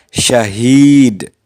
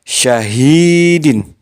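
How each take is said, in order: First: The word ends on a bare d sound. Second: The word ends with a pronounced -in ending. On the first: The reader stops at this word. "apabila diwakafkan, dibaca syahid" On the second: The reader continues without stopping. "asalnya syahidun, syahidin"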